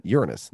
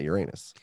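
First: Uranus as YOOR-uh-nus; Uranus with a quick "uh" in the middle; schoolbook pronunciation. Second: Uranus as yur-AY-nus; long stressed AY in the middle of Uranus; Uranus said like "your anus"; old pronunciation. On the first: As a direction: hit the first syllable of Uranus. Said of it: "they pronounce the". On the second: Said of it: "not Uranus". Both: Shown as a demonstration.

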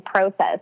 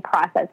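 First: "process" said as PROH-sess; long-O process. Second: "process" said as PRAH-sess; short-O process. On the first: Retold or imitated. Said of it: "I hear you say process". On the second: Shown as a demonstration. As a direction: open "ah" vowel in "process". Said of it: "we say process".

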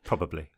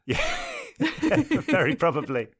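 First: Said in the usual way. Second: Laughing, slow and high. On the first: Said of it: "probably had to subtitle you". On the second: Real, not acted. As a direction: laugh through the words. Laughing at the subtitle joke.

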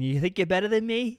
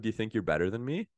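First: Loud, high Boston challenge; hammed-up combative Bostonian; Bostonian accent. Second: Said in the usual way. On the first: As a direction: pick a fight in a Boston accent. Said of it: "My favorite is the Bostonian".

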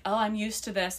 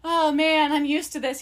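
First: Feed someone their script casually; coaching a pretend line. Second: Higher, hammed-up rehearsed lament; put-on woe. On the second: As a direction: act the neglected girlfriend, laying it on. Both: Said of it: "and you be like".

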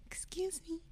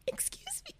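First: Tiny, high, very soft squeak; high-pitched, hushed little voice; timid put-on voice. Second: Very high, tiny, barely audible squeak; ultra-high, whispery timid peep; extra-high timid voice. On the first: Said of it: "prepare myself for this voice I put on". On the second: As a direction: push it up into a hushed, mousy squeak. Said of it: "it's not even as high as it went". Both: Shown as a demonstration.

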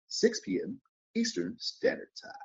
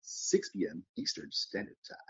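First: Sing-song high announcer take; high put-on voice. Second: Said in the usual way. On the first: Shown as a demonstration. Announcing the show time in a high put-on voice. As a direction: repeat the time pitched way up. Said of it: "I can do a whole bunch of voices".

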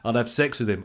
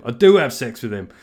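First: Said in the usual way. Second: "do" punched loud and falling, the rest level; stress on DO. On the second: Shown as a demonstration. Podcaster doubling down on his own joke, "do" stressed. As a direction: hit the word "do" hard and land it.

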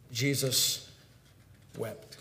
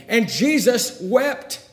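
First: Soft, low, with a long pause between words; hushed verse reading. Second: High, slow, drawn-out proclamation; forceful verse climax. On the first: Preacher reading the shortest verse, hushed and solemn. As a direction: let each word fall quietly and separately. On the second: Preacher retelling the grave scene, forceful climax. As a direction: proclaim it with full pulpit force. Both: A narrator's reading.

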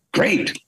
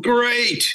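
First: Said in the usual way. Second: "Great." said much higher and thrilled; delighted. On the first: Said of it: "And I'm going". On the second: Retold or imitated. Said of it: "with Roger Rabbit, I'm going".

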